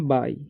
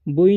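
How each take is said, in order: First: It sounds like 'bye'. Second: It sounds like 'boo-ee'. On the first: The speaker calls it right. "इसे पढ़ना है बाई" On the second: The speaker calls it wrong. "इसे बुई नहीं पढ़ना है"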